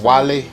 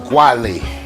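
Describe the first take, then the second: First: The name starts with a plain 'w' sound. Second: The name starts with a 'gw' sound.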